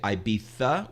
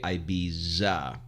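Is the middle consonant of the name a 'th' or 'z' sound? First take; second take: th; z. First: The middle consonant is a lisped 'th' sound. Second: The middle consonant is a plain 'z' sound. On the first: This is how British speakers say it. "all the Brits say Ibiza with sticking the tongue out" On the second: This is how American speakers say it. "we say Ibiza because that's American"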